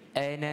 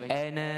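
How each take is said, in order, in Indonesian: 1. Vokal akhir diucapkan pendek. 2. Vokal akhir dipanjangkan. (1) "Ana biasanya kita baca dengan pendek" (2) "kita tak baca ana"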